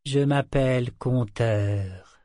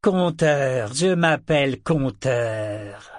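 First: Slow, dazed. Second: Louder, slow declaration; emphatic reclaiming. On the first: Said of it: "marmonna le serpent vert". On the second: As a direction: announce the name with new certainty. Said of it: "s'écria-t-il". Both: A narrator's reading.

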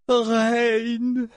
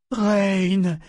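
First: Much higher, long-held cry of the name; voice breaking. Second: Higher, drawn-out call of disbelief; incredulous. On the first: Mother calls her son's name, voice breaking. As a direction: let the name break with emotion. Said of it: "Sa voix se brisa en prononça son nom". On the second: Mother finding her son before the dragon, incredulous. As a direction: call the name as a disbelieving question. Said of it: "demanda-t-elle, incrédule". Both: A narrator's reading.

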